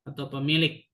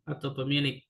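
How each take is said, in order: The two takes are said the same way.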